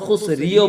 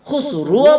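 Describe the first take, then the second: First: The final r is followed by an i vowel. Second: The final r is followed by a u vowel. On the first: "খুসরিও বলতে পারবেন না" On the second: "খুসরুও বলতে পারবেন না"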